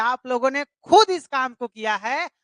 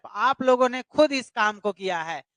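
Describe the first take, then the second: First: खुद pressed with a lift, rest even; खुद said with a little extra weight; stress on खुद. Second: Said in the usual way. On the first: Shown as a demonstration. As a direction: lean on खुद to show it was done by them. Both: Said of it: "हम बोल रहे हैं ना".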